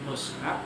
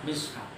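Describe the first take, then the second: First: The vowel after the m is u. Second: The vowel after the m is i. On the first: "mushaf bidomil mim" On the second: "mishaf di kasril mim"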